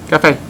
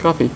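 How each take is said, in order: First: Cafe said "ka-FAY"; cafe, second syllable like "fay"; Vietnamese word for coffee. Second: Said in the usual way. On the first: Shown as a demonstration. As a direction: say cafe ending in an ay sound. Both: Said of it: "How do you say coffee?".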